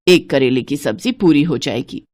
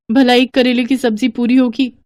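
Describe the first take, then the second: First: Lower, matter-of-fact stinginess on एक करेले; a hint of a stingy old woman; stingy mother-in-law. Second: Higher, sarcastic भला up front; daughter-in-law mocking the mother-in-law's words; mocking echo. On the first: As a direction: settle it like a miser. Mother-in-law decides the portion. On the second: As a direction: scoff at the idea. Daughter-in-law mocks the portion.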